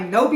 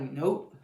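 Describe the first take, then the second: First: Much louder, higher retold refusal; loud mock refusal. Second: Said in the usual way. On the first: Recapper repeating the teen's refusal for laughs, loud mock blurt. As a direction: blurt it out, relishing his bluntness.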